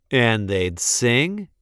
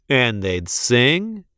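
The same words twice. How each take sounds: The two takes are said the same way.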